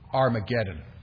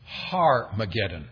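First: The word begins with a vowel, no H sound. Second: The word begins with an H sound. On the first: The speaker calls it wrong. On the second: The speaker calls it right.

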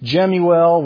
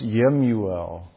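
First: The name begins with a J sound. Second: The name begins with a Y sound. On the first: This is the usual English pronunciation. The speaker calls it wrong. "there's this name Jemuel" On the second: This is the original Hebrew pronunciation. The speaker calls it right. "probably more accurately pronounced Yemuel"

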